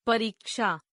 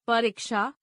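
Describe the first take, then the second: First: Said in the usual way. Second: परीक्षा with a short "i"; mispronounced. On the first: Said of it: "शुद्ध". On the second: Shown as a demonstration. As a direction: say परीक्षा as "pariksha", middle vowel short. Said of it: "अशुद्ध".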